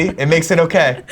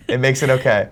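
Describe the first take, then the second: First: Laughing. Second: Said in the usual way. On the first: Real, not acted. Laughing, repeating Keanu's line.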